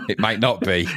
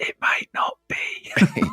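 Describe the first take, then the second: First: Said through a laugh. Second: Slow hushed whisper. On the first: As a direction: chuckle while saying it. First take, laughing aloud. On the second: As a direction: whisper it back conspiratorially. Echoing the secret in whisper. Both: Pretend.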